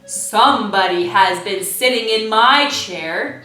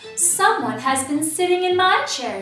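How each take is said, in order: First: It is said in a great big bear voice. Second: It is said in a middle-sized bear voice.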